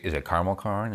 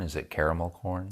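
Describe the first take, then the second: First: Caramel said as "CAR-mul" before corn; two-syllable caramel. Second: Caramel said as "CARE-uh-mel" before corn; three-syllable caramel. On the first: Asking co-hosts which is right, caramel as CAR-mul. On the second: Offering co-hosts the other option, caramel as CARE-uh-mel. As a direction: ask with caramel given its middle vowel, CARE-uh-mel. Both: Shown as a demonstration.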